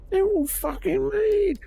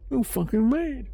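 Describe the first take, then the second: First: Exasperated yell. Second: Exasperated shout. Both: Real, not acted.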